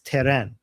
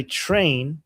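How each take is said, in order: First: "teren" with a vowel between t and r; Persianized train. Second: Said in the usual way. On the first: Shown as a demonstration. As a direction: split the cluster into two syllables: "teren". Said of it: "that's why train is teren". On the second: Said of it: "in Persian".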